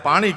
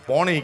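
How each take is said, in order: First: It is said with an open 'aa' vowel. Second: It is said with an 'o' vowel. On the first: This is the standard Gujarati form. "આપણે એને પાણી કહેવાય" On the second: This is the North Gujarat rural dialect form. "અહીંયા પોણી કે છે"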